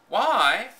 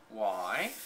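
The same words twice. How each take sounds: First: Higher, louder incredulous why; incredulous echo. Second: A cool, lower flat why; coldly. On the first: Maid echoing the girl's question, incredulous. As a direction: throw the word back, astonished. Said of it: "echoed Martha". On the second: Girl coldly asking the maid, cool. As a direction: ask it coldly, uninterested. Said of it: "said Mary coldly". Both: A narrator's reading.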